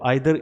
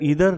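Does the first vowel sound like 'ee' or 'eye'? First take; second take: eye; ee. First: The first vowel sounds like 'eye'. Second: The first vowel sounds like 'ee'. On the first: "आइदर को हम ईदर भी pronounce करते हैं" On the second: "दोनों ही pronunciation जो है वो सही है"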